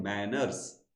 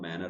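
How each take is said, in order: First: मैनर्स said with a clear final s; manners with s. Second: मैनर said with no s at the end, lower and soft; manner without s. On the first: Teacher contrasts etiquette with grammar, मैनर्स with final s. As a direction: pronounce मैनर्स ending on a hissed s. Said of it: "हम मैनर्स नहीं". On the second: Teacher names the grammar term, मैनर without the s. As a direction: close मैनर on the r, no s. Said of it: "हम मैनर पढ़ रहे हैं". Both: Shown as a demonstration.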